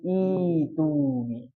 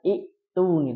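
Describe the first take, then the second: First: The glottal stop is replaced by a long vowel. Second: A glottal stop is kept after the first vowel. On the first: The speaker calls it right. "tapi itu nih. Jadi hamzahnya hilang" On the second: The speaker calls it wrong. "Jadi enggak itu nih"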